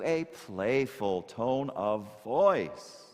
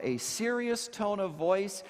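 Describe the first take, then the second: First: Playful, drawn-out delivery. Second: Sober, deliberate delivery; serious tone. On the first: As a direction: stretch it out slowly and playfully. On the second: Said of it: "shift from a serious tone of voice". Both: Shown as a demonstration.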